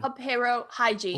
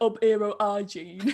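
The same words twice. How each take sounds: First: Each word begins with a clear H sound. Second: Each word drops its initial H sound.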